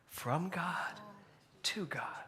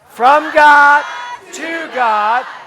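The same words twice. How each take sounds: First: It is said very quietly. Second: It is screamed very loudly.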